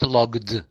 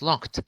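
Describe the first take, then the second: First: The ending is pronounced as a d sound. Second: The ending is pronounced as a t sound. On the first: The speaker calls it wrong. "No, it's not logged" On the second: The speaker calls it right. "It's locked"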